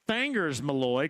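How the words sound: Fingers has a Southern Indiana vowel, like Fangers.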